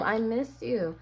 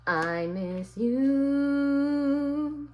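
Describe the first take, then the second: First: Said in the usual way. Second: Slow, high sung "I miss you" drawn out; sung softly. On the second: Pretend. To the absent lover, a slow high crooned line. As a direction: croon the line like a love song.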